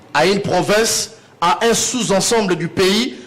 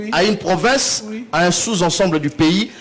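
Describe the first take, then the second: The two takes are said the same way.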